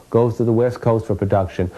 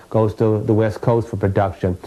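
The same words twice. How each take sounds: The two takes are said the same way.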